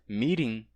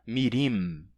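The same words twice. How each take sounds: First: The final nasal has no mouth closure. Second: The final nasal is closed with a full contact. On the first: The speaker calls it right. "se diz mirim" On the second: The speaker calls it wrong. "e não mirim"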